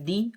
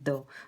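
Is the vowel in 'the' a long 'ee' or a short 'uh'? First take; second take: long ee; short uh. First: The vowel is a long ee sound. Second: The vowel is a short uh sound. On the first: "द के दो sound होते हैं, एक होता है दी" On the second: "दूसरा होता है द"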